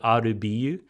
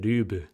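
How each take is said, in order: First: The title is spelled out as separate letters. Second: The title is said as one short word. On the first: This was the expected reading, not the show's. The speaker calls it wrong. "how are they going to pronounce this?" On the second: This is how the show itself says it. The speaker calls it right. "they say Rube"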